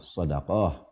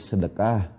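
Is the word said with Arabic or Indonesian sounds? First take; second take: Arabic; Indonesian. First: It has the original Arabic sounds. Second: It has plain Indonesian sounds. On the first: This is the word in its original language. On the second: The word has become part of the local language. "sudah jadi bahasa kita"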